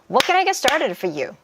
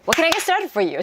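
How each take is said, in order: First: The sentence is spoken at a slow pace. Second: The sentence is spoken at a fast pace.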